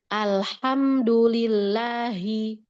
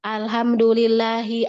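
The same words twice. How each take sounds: First: Alhamdulillahi slowed, the double L in lillahi held long; correct reading. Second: Alhamdulillahi said with a plain single L, no doubling; wrong reading. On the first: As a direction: lean on the doubled L of Alhamdulillahi, slowly. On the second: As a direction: show the faulty Alhamdulillahi, L not held. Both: Shown as a demonstration.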